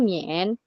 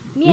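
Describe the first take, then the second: First: The pitch dips low, then rises. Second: The pitch falls sharply from high to low. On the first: "Kalau nada tiga mien" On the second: "Kalau ini kan empat"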